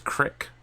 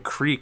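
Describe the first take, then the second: First: The vowel is a short 'i' sound. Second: The vowel is a long 'ee' sound. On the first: "It's a West Virginia thing" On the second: "pronouncing creek as"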